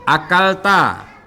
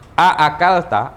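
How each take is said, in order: First: The first vowel is short. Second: The first vowel is drawn out long. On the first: It states that the listener has eaten. "Akalta ini adalah fi'il madi, artinya kamu sudah makan" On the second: It asks whether the listener has eaten. "tambah lagi alifnya"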